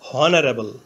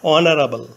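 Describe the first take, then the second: First: The word begins with an h sound. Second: The word begins directly with a vowel. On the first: The speaker calls it wrong. "প্রথমে এইচ ধরে উচ্চারণ করলে হয় হনারেবল" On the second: The speaker calls it right. "এইচ এর উচ্চারণ না হয়ে vowel ও থেকে উচ্চারণ শুরু হয়েছে"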